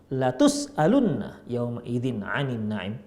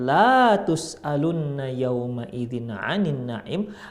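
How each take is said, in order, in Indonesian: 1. Vokal setelah l pertama pendek. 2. Vokal setelah l pertama panjang. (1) "kalau lamnya dipendekkan" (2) "kalau kita panjangkan"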